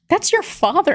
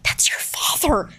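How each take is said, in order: First: It is spoken in a normal voice. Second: It is spoken in a whisper.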